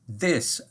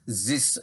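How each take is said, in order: First: The th is said with the tongue between the teeth. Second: The th is said with the tongue behind the teeth. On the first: The speaker calls it right. "as your tongue between your teeth" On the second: The speaker calls it wrong. "Not your typical French tongue behind your teeth"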